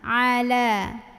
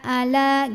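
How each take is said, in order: First: The word starts with a deep throat sound. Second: The word starts with a plain, shallow vowel. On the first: The speaker calls it right. "Ini a dari tenggorokan tengah" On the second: The speaker calls it wrong. "kurang masuk ainnya"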